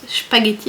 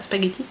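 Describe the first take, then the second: First: The initial S has the German pronunciation. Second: The initial S has the French pronunciation. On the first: The speaker calls it right. "quand on prononce bien l'allemand, le S se prononce spaghetti" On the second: The speaker calls it wrong. "et non pas spaghetti"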